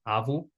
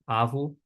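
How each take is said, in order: First: The 'va' sound is said once. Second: The same.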